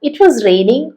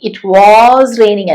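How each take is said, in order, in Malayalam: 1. 'was' എന്ന വാക്കിന് ചെറുതും ലഘുവായതുമായ സ്വരാക്ഷരമുണ്ട്. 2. 'was' എന്ന വാക്കിന് പൂർണ്ണവും ഊന്നലുള്ളതുമായ സ്വരാക്ഷരമുണ്ട്.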